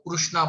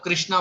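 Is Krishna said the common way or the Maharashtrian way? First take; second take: Maharashtrian; common. First: The name is said the Maharashtrian way. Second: The name is said the common way. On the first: "वो लोग कृष्णा बोलते हैं" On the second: "हम लोग कृष्णा बोलते हैं"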